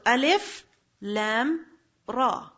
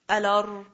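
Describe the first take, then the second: First: Each letter name is read separately. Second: The letters are run together as one word. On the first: The speaker calls it right. "You read every letter how? Individually" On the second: The speaker calls it wrong. "you don't say alar"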